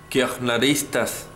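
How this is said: The word is pronounced the German way. "más en alemán"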